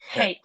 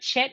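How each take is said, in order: First: It begins with a rough 'h' sound. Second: It begins with a 'ch' sound as in 'church'. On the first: The speaker calls it right. "it's like a hate" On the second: The speaker calls it wrong. "it's not a chet"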